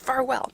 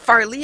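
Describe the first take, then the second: First: The name is said as Farwell. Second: The name is said as Farley. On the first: The speaker calls it right. "It's Farwell" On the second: The speaker calls it wrong. "wrong pronunciation of the hall"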